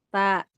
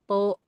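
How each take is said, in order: First: The vowel is thin and ends like a. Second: The vowel is thick and ends like o. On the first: The speaker calls it right. "Ba, ta, gitu kan?" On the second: The speaker calls it wrong. "Tidak bo, to, enggak begitu"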